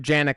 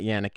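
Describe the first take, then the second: First: The name begins with a hard J sound. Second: The name begins with a Y sound. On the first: It is the Americanized pronunciation. The speaker calls it wrong. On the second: It is the original pronunciation. The speaker calls it right.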